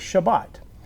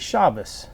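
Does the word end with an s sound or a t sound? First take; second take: t sound; s sound. First: The word ends with a t sound. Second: The word ends with an s sound. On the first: This is how the speaker's own group says it. "We say Shabbat" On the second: This is how another group says it. "other people who say Shabbos"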